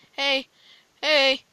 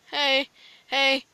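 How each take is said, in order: Both takes have the same delivery.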